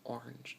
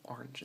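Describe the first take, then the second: First: Orange said ornge, the middle vowel dropped; local orange. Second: Orange said ornge against or-inj; orange with the A dropped. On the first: Speaker showing the local orange. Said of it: "but we say, like, orange". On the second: Speaker showing both oranges. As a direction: drop the middle vowel of orange. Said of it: "instead of orange". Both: Shown as a demonstration.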